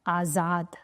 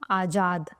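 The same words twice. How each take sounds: First: The middle consonant is a 'z' sound. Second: The middle consonant is a 'j' sound. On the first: "अगर मैंने यही नुक्ता लगा दिया तो ये हो जाता है आजाद" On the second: "ये हो गया आजाद"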